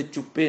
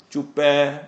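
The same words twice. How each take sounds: First: ਚੁੱਪੇ with a short closed final -e; wrong short reading. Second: ਚੁੱਪੈ with a long open -ai, then a stop; paused, drawn-out reading. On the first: Preacher warns against misreading the verse, short ਚੁੱਪੇ. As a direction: say ਚੁੱਪੇ quickly, without holding the last vowel. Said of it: "ਇੱਥੇ ਚੁੱਪੇ ਨਹੀਂ ਪੜਨਾ". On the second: Preacher shows where to stop in the verse, held ਚੁੱਪੈ. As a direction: hold the end of ਚੁੱਪੈ level and pause after it. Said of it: "ਰੁਕ ਕੇ". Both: Shown as a demonstration.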